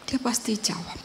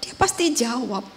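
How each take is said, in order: First: Whispered repeat of "Dia pasti jawab"; whispered echo. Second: Said in the usual way. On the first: Shown as a demonstration. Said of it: "repeat, whispered". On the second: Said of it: "repeat, second whispered".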